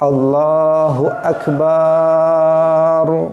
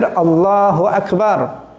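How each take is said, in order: First: The ba syllable is drawn out long. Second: It is said with no added or lengthened sound.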